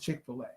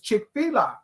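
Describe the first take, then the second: First: The middle is said like the word 'filet'. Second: The middle is said like the spelling 'fila'. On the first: The speaker calls it wrong. "She says it's Chick-fil-A" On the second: The speaker calls it right. "I'm saying it right. It's Chick-fil-A"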